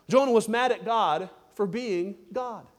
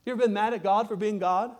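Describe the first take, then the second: First: Slow, each word of "Jonah was mad at God for being God" weighted, falling tune; slow emphatic statement. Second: "been" lifted into a rising question to the listeners. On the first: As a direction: spell out the point deliberately. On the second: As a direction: ask it straight to the congregation. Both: Shown as a demonstration. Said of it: "We could put it this way".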